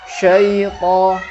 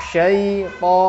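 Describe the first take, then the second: Both takes have the same delivery.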